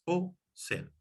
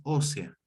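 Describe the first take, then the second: First: "o sea" split into two words, O, pause, sea; "o sea" spaced out with a pause after the o; two separate words. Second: "ósea" as one word, stressed on the first syllable Ó; "ósea" run together with the accent up front. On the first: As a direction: say "o", leave a clear gap, then "sea". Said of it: "dos palabras". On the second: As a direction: hit the Ó in "ósea", no gap. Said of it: "con acento en la O". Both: Shown as a demonstration.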